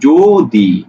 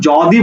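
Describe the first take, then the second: First: The first vowel is a closed 'o' sound. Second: The first vowel is an open 'aw' sound. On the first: The speaker calls it right. "জো দি, এভাবে উচ্চারণ করি" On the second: The speaker calls it wrong. "আমরা কিন্তু যদি বলি না"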